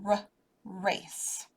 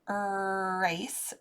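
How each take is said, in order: First: The word starts with a short, clipped 'r' sound. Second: The word starts with a drawn-out 'er' vowel sound. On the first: The speaker calls it right. "it's a r" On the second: The speaker calls it wrong. "It's not an er race"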